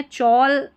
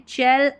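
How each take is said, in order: First: "चौल" with an aw vowel; गलत उच्चारण. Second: "चैल" with an open e vowel; सही उच्चारण. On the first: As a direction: say "चौल" as "chawl", like "all". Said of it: "चौल नहीं बनता है". ("चौल" में औ का स्वर) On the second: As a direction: say "चैल" as "chal", not "chawl". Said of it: "उच्चारण भी आपको देखना है". ("चैल" में ऐ का स्वर) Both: Shown as a demonstration.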